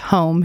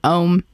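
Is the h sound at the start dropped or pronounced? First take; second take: pronounced; dropped. First: The word starts with a clear h sound. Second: The word starts without any h sound.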